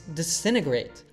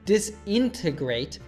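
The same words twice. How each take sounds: First: Three syllables are said, and the first T drops. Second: All four syllables are said, with both T sounds. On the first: "It reduces from four to just three syllables, and the first T sound disappears" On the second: "it's not disintegrate"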